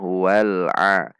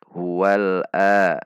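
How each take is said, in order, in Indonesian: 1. Vokal terakhir dimulai dengan bunyi tengah tenggorokan yang ditekan. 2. Vokal terakhir dimulai dengan hamzah biasa. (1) "Ada usaha yang keras untuk membunyikan huruf ain ada dari tengah tenggorokan" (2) "tidak dibaca a"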